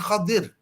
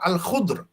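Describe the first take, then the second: First: The name has 'a' and 'i' vowels, two syllables. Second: The name has a 'u' vowel, one syllable. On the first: The speaker calls it wrong. "bukan Khadir" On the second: The speaker calls it right. "Dia adalah Al-Khudr"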